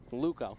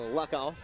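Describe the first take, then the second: First: The first syllable sounds like 'loo'. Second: The first syllable sounds like 'lock'. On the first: The speaker calls it right. "it's Lou" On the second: The speaker calls it wrong. "So I've been wrong this whole time"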